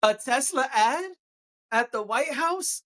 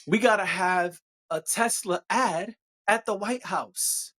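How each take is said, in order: First: Slightly higher, slower disbelief; incredulous. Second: Slow mock-serious sarcasm; satirical. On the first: Acted. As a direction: repeat it like you can't believe it. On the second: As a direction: say it with a straight face, dripping sarcasm. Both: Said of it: "I'm being satirical".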